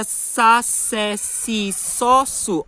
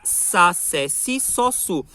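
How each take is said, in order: First: Sa se si so su com língua no dente de baixo; Portuguese s. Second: Sa se si so su com a língua no dente de baixo; Portuguese s. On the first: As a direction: diga as sílabas em português. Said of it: "Então, em português". (s do português) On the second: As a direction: repita as sílabas à portuguesa. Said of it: "língua tá aqui no dente de baixo". (s português) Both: Shown as a demonstration.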